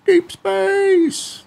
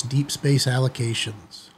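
First: Much higher, drawn-out movie-trailer call; hammed-up outer-space announcer; dramatic sci-fi announce. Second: Said in the usual way. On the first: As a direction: boom it like a space epic title. Dramatic echo of the title.

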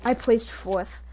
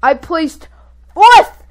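First: Said in the usual way. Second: Elated shout. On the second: Real, not acted. Player celebrating best placing ever, elated shout. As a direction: build to a high, loud FOURTH.

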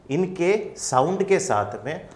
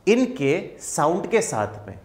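No difference in how they are said.

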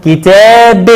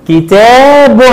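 First: كتاب drawn out to "-bin"; kasra tanween. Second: كتاب drawn out to "-bun"; damma tanween. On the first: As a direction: say كتاب as "kitaabin". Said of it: "وعند التنوين بالكسر هنقول". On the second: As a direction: say كتاب as "kitaabun", higher. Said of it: "عند التنوين بالضم مع كلمة كتاب هنقول". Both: Shown as a demonstration.

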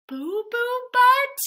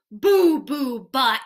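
First: Very high, stretched-out question; comic shock, voice shooting up; incredulous echo. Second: Said in the usual way. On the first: Acted. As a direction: repeat it in scandalized disbelief. Reader shocked echo of silly name.

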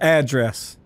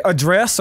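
First: "address" said AD-dress; stress on first syllable. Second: "address" said uh-DRESS; stress on second syllable. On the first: Player offers the other variant, "address" as AD-dress. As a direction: say "address" with the weight on AD. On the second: Player asks viewers how they say it, "address" as uh-DRESS. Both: Shown as a demonstration. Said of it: "depending on where you grew up".

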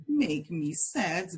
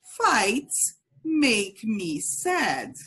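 First: Said in the usual way. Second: Very slow, clear model for repeating; slow model phrase. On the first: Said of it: "One more time". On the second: Shown as a demonstration. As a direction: drill it slowly, word by word. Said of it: "So repeat".

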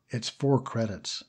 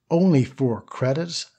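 First: Said in the usual way. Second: Slow, rising disbelief on "only"; astounded. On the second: Acted. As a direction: stretch "only four credits?" in mild amazement. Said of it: "He stood absolutely astounded".

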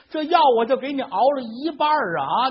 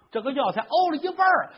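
First: Put-on near-tearful old wife. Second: Said in the usual way. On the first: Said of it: "老太太都快哭了".

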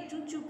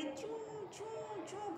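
First: Said in the usual way. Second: High, drawn-out squeaky mouse imitation; mouse squeak. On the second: Shown as a demonstration. Teacher showing pupils how a mouse keeps going, squeaking imitation.

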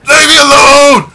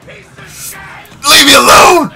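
First: Quick, high, loud scream; short terrified yell. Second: Long, stretched, high and loud scream; drawn-out terrified yell. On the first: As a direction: blurt the plea in terror. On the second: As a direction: drag the plea out in terror. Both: Real, not acted. Being attacked in horror game.

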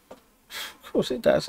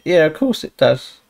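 First: Slow, soft, breathy aside; sarcastic whisper. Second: Said in the usual way. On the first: Real, not acted. Player after the food tastes bad, a slow sarcastic whisper. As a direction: mutter it to yourself, slowly.

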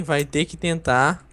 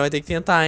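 First: Slow, drawn-out nudge ending on a rise; slow teasing repeat. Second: Said in the usual way. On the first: Real, not acted. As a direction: stretch the words out like a teasing dare. Repeats encouragement, drawn out slowly. (devagar, arrastado e provocador)

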